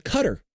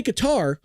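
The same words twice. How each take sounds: First: Qatar as CUT-er, stress on first; correct Qatar. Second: Qatar as kuh-TAR, stress on TAR; alternative Qatar. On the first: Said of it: "but it's called Qatar". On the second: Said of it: "You could say Qatar". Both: Shown as a demonstration.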